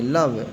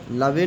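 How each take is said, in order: First: "लव" as one syllable ending on v; silent final e. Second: "लवे" in two syllables, e voiced; wrong final e sounded. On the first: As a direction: say "लव" with no e sound at the end. ("लव" में अंत का ई silent रखकर) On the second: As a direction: misread love as "लवे", luh-vay. ("लवे", अंत का ई बोलकर गलत उच्चारण) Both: Shown as a demonstration. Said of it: "लवे नहीं पढ़ेंगे".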